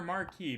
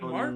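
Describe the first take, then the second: First: The word is said as two syllables. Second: The word is said as one syllable. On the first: "might be the French pronunciation" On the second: "is it Mark"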